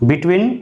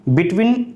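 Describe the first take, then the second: Both takes have the same delivery.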